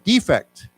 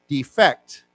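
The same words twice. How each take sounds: First: The stress is on the first syllable. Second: The stress is on the second syllable.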